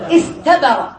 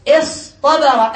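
First: استبر with a plain, light t; light tāʾ original form. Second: اصطبر slow, split after is, with heavy ṭ; emphatic ṭāʾ. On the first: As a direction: say استبر with ت, not emphatic ط. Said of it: "إيش أصله؟". (نطق استبر بتاء مرققة) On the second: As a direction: say اصطبر with a pause, then an emphatic ط. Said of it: "أبدلوا بدل التاء طاء". (نطق اصطبر بطاء مفخّمة مع تقطيع) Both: Shown as a demonstration.

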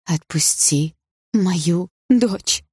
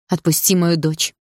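First: Very slow, begging plea; pleading. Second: Steady, firm demand. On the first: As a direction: beg him for your daughter. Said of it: "взмолилась мама". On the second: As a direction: say it firmly, chin raised. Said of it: "твёрдо повторила мама". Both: A narrator's reading.

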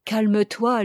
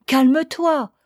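First: Said in the usual way. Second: "Calme-toi" pitched higher and louder; urgent insistence. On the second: A narrator's reading. Lover seizing her hand, "Calme-toi" urged higher and louder. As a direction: insist on "Calme-toi", raised and falling at the end. Same plea repeated more urgently.

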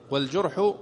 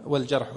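First: Short u after the j in والجرح; والجرح with a "ju" sound, not "ja"; damma on the jim. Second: Short a after the j in والجرح; والجرح with a "ja" sound, not "ju"; fatha on the jim. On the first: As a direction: say والجرح as "wal-jurh". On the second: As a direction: say والجرح as "wal-jarh". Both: Shown as a demonstration. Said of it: "الجرح ولا الجرح؟".

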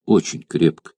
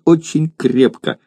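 First: Tender mother. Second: Put-on little girl. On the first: Acted. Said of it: "стараясь удержать свои слёзы". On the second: Child answers eagerly.

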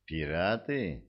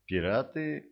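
First: Firm, flat and final. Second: Said in the usual way. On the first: A narrator's reading. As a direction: say it firmly, end of discussion. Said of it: "твёрдо сказала Тенни".

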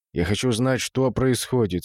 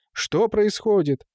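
First: Composed, slightly slowed question; calm. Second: High, drawn-out astonished question; startled exclamation. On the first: Gustad pulling himself together to ask what happened, calm. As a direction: ask it evenly, holding yourself together. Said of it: "спокойно произнёс Густат". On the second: Watchman shown the dead cat, exclaiming in shock. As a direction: ask it aghast, stretching the words. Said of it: "воскликнул Гуркха". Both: A narrator's reading.

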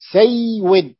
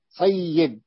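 First: "سيود" higher, with the و clearly sounded; underlying form, sounded out. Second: Said in the usual way. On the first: Shown as a demonstration. Teacher showing the origin of sayyid, sounded out. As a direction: say "سيود" in two syllables, a clear w starting the second. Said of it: "سيد أصله سيود". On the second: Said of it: "قلبت الواو ياء وأدغمت في الياء".

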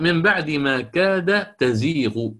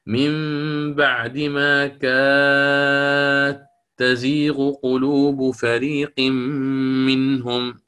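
First: Slow recitation, تزيغ with ta, dal kept clear; recited reading. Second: Very slow chanted recitation, كاد تزيغ merged into katteezighu; with assimilation. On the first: Teacher recites the plain reading to his students, slow. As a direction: recite كاد تزيغ slowly, dal and ta separate. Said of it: "فقرأ". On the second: Teacher chants al-Susi's reading with assimilation, very slow. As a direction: draw out كاد تزيغ so the dal melts into the ta. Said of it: "قرأ بالإدغام". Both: Shown as a demonstration.

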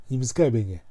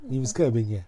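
Both takes have the same delivery.

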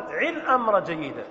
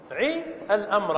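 First: عي stressed at the start, then falling. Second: Said in the usual way. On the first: Shown as a demonstration. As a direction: hit عي clearly as the model verb. (نبر على عي) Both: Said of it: "فنقول".

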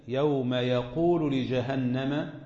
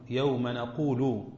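First: يوم يقول recited slowly with ya, yaqulu not naqulu; slow Quranic reading of يقول starting with y. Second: يوم نقول recited slowly with clear nun, nequlu; slow Quranic reading of نقول starting with n. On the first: Teacher recites Nafi's reading with ya, slow and measured. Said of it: "وقرأ نافع وأبو بكر بالياء". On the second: Teacher recites the majority reading, slow and measured. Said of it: "نقول هي قراءة الجمهور". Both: Shown as a demonstration.

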